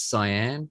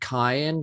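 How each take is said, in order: First: The word begins with an s sound. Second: The word begins with a k sound. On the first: The speaker calls it right. "but apparently it's cyan" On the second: The speaker calls it wrong. "for years I said cayenne"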